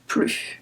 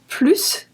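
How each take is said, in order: First: The final S sound is silent. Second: The final S sound is pronounced. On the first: It means no more. "Negative, you're not going to pronounce the S" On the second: It means more. "Positive, you're going to pronounce the S"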